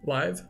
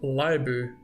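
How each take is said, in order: First: The word ends cleanly on its final consonant. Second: The word ends with an added vowel sound. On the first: The speaker calls it right. "try to pronounce it super correctly" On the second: The speaker calls it wrong. "Always comes out like libu or livu"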